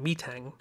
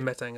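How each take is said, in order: First: The first syllable sounds like 'meet'. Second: The first syllable sounds like 'met'. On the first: "they pronounced it Metang" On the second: "I'd say Metang as well"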